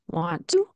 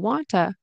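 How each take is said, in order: First: Both t sounds are pronounced in full. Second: The two t sounds merge into one. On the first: "Want to turns into wanta" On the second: "turns into wanta"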